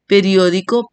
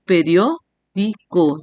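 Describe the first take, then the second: First: Said in the usual way. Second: "periódico" slowly, broken as pe-rió-di-co; split into syllables. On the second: Shown as a demonstration. Teacher showing the diphthong stays together, syllable by syllable. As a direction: say "periódico" in separate beats, rió kept as one. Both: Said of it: "cuatro sílabas".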